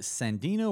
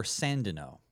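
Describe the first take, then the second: First: Sandino said as san-DEE-no; stress on second syllable. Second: Sandino said as SAN-dih-no; stress on first syllable. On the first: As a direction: say Sandino with a long ee, stressed in the middle. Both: Shown as a demonstration. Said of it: "correct me if I'm wrong".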